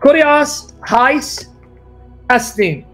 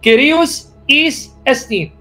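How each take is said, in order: First: It uses the Erasmian scholarly Greek pronunciation. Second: It uses the modern native Greek pronunciation. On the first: "That's the Erasmian way" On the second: "liked it when I pronounced it the Greek way"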